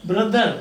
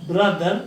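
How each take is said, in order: No difference in how they are said.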